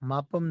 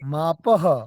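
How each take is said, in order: First: The word ends with an m sound. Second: The word ends with a breathy h sound. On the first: The speaker calls it wrong. "मापम नहीं है" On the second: The speaker calls it right.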